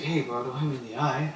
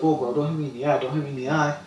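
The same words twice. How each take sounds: First: Said in the usual way. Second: Complaining. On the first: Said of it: "he was complaining". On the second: Retold or imitated. Opponent complaining after getting hit, whiny protest. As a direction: complain like you just got punched. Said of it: "he was complaining that I hit him".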